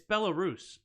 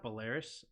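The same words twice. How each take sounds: First: Belarus as BEL-uh-roos, stress on first syllable; corrected pronunciation. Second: Belarus as buh-LAIR-us, stress on second syllable; mispronounced version. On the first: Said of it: "It just hit me". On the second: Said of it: "not Belarus". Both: Shown as a demonstration.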